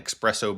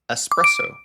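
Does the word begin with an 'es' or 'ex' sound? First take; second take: ex; es. First: The word begins with an 'ex' sound. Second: The word begins with an 'es' sound. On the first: The speaker calls it wrong. "I've ridden on an espresso before" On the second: The speaker calls it right. "So the correct word is espresso"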